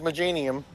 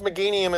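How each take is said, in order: First: The middle consonant is a soft j sound. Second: The middle consonant is a hard g sound. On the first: The speaker calls it wrong. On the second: The speaker calls it right.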